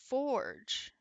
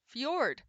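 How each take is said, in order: First: The word ends with a soft J sound. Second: The word has a Y sound and ends in D. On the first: The speaker calls it wrong. "I am saying it wrong. ... I was adding a G" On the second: The speaker calls it right. "so it's a Y for Yorge. For for Yord"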